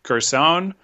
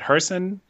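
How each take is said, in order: First: The name begins with a hard G sound. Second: The name begins with an H sound. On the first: This is how the broadcast says it. "I'll go with what they've been saying on the broadcast" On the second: This is how the speaker used to say it. "I was saying it Herson"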